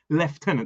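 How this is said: The first syllable is said with an f sound. "we pronounce it with a f sound"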